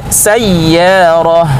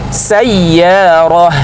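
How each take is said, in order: Both takes have the same delivery.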